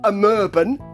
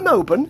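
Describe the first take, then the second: First: The vowel after the m is a front ö. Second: The vowel after the m is a plain o. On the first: "you've got the umlaut on the O, so I'm saying it like that" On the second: "not Amoban"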